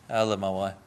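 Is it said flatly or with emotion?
flatly. It is said flatly, without feeling.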